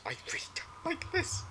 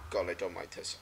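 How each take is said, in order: First: High, unvoiced frightened whisper; scared whisper. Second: Said in the usual way. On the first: Real, not acted. Streamer creeped out by the horror game, whispering. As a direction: breathe it out, spooked. Whispered repeat after plain take.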